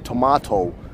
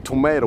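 First: The word is said in a British way. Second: The word is said in a non-British way. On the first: This is how people in the UK say it. The speaker calls it right. "we say tomato" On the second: This is not how people in the UK say it. The speaker calls it wrong. "At the UK, we don't say tomato"

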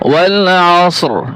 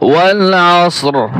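First: The phrase ends on a bare r sound. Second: The phrase ends on a bare r sound.

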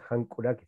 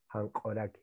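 First: The vowel after the k is a u. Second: The vowel after the k is an o. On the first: The speaker calls it wrong. "No decimos hankuraki" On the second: The speaker calls it right. "sino hankoraki"

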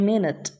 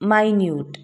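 First: The first syllable sounds like min. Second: The first syllable sounds like my. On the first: It means a short unit of time. "ഇത് noun എങ്കിൽ മിനിറ്റ് എന്നാണ് ഉച്ചരിക്കുന്നത്" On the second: It means very small. "ഇത് തന്നെ adjective ആണെങ്കിൽ മൈന്യൂട്ട് എന്നാണ് ഉച്ചരിക്കുക"

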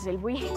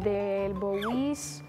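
First: The surname ends with a 'buy' sound. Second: The surname ends with a 'bowies' sound. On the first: The speaker calls it right. "pero en realidad es" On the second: The speaker calls it wrong. "A veces me dicen"

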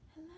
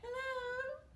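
First: It is said very quietly. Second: It is said at medium loudness.

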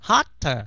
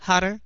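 First: The middle consonant is a hard, strong d. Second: The middle consonant is a very light flap. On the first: The speaker calls it wrong. "đừng có đọc là" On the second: The speaker calls it right. "mà là"

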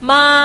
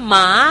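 First: The pitch stays high and level. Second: The pitch rises from mid to high.

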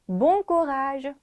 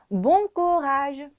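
Both takes have the same delivery.

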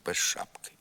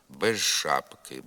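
First: The consonant before ш is a voiceless sh sound. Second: The consonant before ш is a voiced zh sound. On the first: "При швидкому темпі мовлення ... оглушується і уподібнюється звукові «ш»" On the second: "зберігає свою дзвінкість і уподібнюється звукові «ж»"

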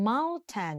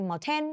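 First: The stress is on the first syllable. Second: The stress is on the second syllable. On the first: The speaker calls it right. "เขาออกเสียงว่า, mountain, นะเน้นที่ตัว, mount" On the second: The speaker calls it wrong. "ไม่ใช่, mountain, อย่างนี้ไม่เอานะ"

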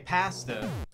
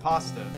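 First: Pasta is pronounced the Canadian way. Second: Pasta is pronounced the American way. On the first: "we also say pasta" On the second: "people in America pronounce it pasta"

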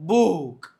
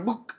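First: The vowel is said long and drawn out. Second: The vowel is said short and clipped. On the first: The speaker calls it right. "બુક તો લાંબો ઉચ્ચાર થયો" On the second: The speaker calls it wrong. "આપણે બુક એમ નથી વાંચતા ને"

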